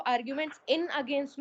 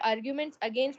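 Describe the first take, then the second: First: "in" in "arguments in against" pushed out, mocking the wrong form; stress on in. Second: "arguments against" said slowly and evenly, no in; slow correct phrase. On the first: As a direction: lean hard on "in" to show the mistake. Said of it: "अब इसको arguments against पढ़ोगे". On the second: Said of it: "या फिर तुम लोगों को arguments in against". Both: Shown as a demonstration.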